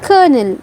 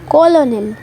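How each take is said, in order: First: It is said as kernel with an R sound. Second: It is said as ko-lo-nel with an L. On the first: The speaker calls it right. "इसको हम English में pronounce करते हैं कर्नल" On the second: The speaker calls it wrong. "अब ये कॉलोनिल नहीं है"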